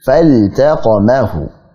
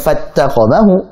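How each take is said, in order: First: The L is pronounced clearly before the T. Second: The L is merged into a doubled T. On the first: The speaker calls it right. "Ini adalah lam sukun asli ... Jadi dibaca dengan apa? Jelas" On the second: The speaker calls it wrong. "Jadi bukan fattaqamahu"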